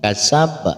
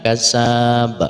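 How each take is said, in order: First: All the vowels are kept short. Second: The vowel after the s is drawn out long. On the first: The speaker calls it right. "semuanya dibaca pendek saja. Kasab seperti itu" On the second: The speaker calls it wrong. "Jangan sampai kita membacanya kasab karena tidak ada huruf sin yang berharokat panjang"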